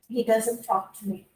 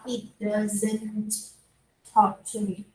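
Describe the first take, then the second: First: The sentence is said quickly, with doesn't reduced. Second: The sentence is said slowly, with doesn't fully pronounced. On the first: The speaker calls it right. "we have to say quickly" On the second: The speaker calls it wrong.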